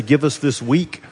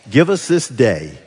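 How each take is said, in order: First: "Give us this week" with a rising, doubtful lift on "week"; questioning "week". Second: "Give us this day" said slowly, each word weighed; stress on day. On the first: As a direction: pose it as a wrong reading, rising. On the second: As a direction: lean on "day", unhurried. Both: Shown as a demonstration. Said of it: "do any of your translations say".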